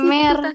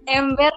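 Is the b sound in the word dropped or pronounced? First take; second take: dropped; pronounced. First: The b sound in the middle is dropped. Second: The b sound in the middle is pronounced. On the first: "yang ember jadi emer" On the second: "B-nya jadi nggak ada"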